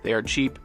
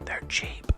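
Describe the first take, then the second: First: It is said in a normal full voice. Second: It is said in a soft whisper.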